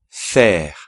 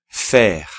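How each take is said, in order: The two takes are said the same way.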